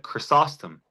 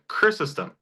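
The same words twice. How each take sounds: First: Chrysostom said chris-OS-tom; stress on second syllable. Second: Chrysostom with the first syllable CHRIS punched high; stress on first syllable. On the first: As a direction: lean on the SOS in Chrysostom. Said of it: "puts the stressor on the second syllable". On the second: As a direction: hit CHRIS in Chrysostom, let the rest fall away. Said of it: "the stressor's on the first syllable". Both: Shown as a demonstration.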